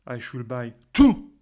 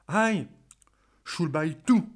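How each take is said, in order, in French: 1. L'accent est sur le mot two. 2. L'accent est sur le mot I. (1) "si j'insiste sur le mot to" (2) "si vous insistez sous le mot aïe"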